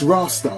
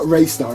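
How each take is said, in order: First: The first syllable sounds like 'rah'. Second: The first syllable sounds like 'ray'. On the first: The speaker calls it right. "I'm sure that's how you say it" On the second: The speaker calls it wrong. "It's not Raystar"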